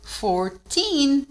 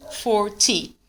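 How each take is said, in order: First: Put-on "Fourteen" with long, raised "teen"; "Fourteen" higher, weight on TEEN; stress on TEEN. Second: "forty" with a short, dry "ty"; "forty" with a brief falling ending. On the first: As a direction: stretch the second syllable of "Fourteen" to a clear n. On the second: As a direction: end "forty" briskly on "tee", no n. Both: Shown as a demonstration. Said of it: "a diferença na pronúncia".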